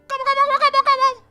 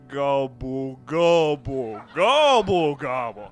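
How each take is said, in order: First: The gobbles are said at a normal, quick pace. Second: The gobbles are drawn out and said slowly.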